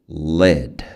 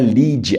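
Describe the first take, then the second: First: The vowel is a short, lax 'ih' sound. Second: The vowel is a long, tense 'ee' sound. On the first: The speaker calls it right. "eles falam le, le" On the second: The speaker calls it wrong. "Não é lead, é porque no português a gente fala lead"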